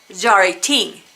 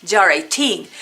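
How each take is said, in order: The two takes are said the same way.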